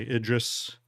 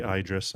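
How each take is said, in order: First: Idris said "ID-ris", short I at the start; his pronunciation. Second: Idris said "EYE-dris", long I at the start; rejected pronunciation. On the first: Streamer gives the way he says the ship's name. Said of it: "I say Idris". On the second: Streamer shows the way he won't say the ship's name. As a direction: Idris with "eye" as the first sound. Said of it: "I don't say Idris". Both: Shown as a demonstration.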